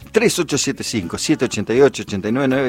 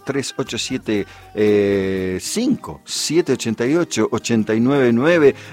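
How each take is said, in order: First: The number is said fast. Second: The number is said slowly.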